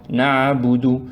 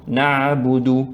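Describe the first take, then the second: Both takes have the same delivery.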